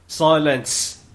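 It is said in a put-on character voice.

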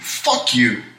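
It is said sharply and aggressively.

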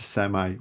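The word is said the American way. "Americans would say semi"

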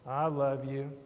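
It is said in a grudging, uneasy tone. The speaker is in trouble. "First one sounded like you were in trouble"

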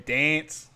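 It is said the Melbourne way. "we're Melbourne scum, so we're dance"

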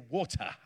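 It is said with a British accent. "I say water, because the Queen says water"

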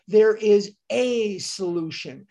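The word 'there' is stressed. The solution is found in a particular place. "shifting the emphasis to "there"

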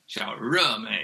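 The middle syllable starts with a curled R sound. This is the Beijing way of saying it. "in Beijing, ... and the tongue curls back"

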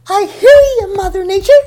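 It is said in an exciting, charming way.

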